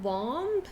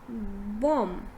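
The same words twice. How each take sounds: First: A b sound is heard at the end. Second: No b sound is heard at the end. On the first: The speaker calls it wrong. "instead of saying bomb" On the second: The speaker calls it right. "B is silent"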